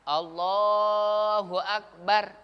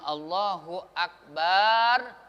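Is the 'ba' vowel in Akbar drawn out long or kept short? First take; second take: short; long. First: The vowel of 'ba' is kept short. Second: The vowel of 'ba' is drawn out long. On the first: It keeps the intended meaning. The speaker calls it right. "Yang panjang itu alifnya, lamnya" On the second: It changes the meaning to something about a drum. The speaker calls it wrong. "Apabila ba-nya dibaca panjang"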